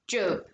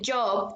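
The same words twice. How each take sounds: First: The vowel is replaced with a 'u' sound. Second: The vowel sounds like a standard 'o'. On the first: "they would say job" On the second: "they would not say a job"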